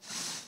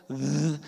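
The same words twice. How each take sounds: First: "th" as a voiceless breath of air; isolated voiceless "th" sound; unvoiced th. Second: "th" held as a voiced buzz; isolated voiced "th" sound. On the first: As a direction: hold "th" without any voice. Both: Shown as a demonstration. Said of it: "how you voice that consonant".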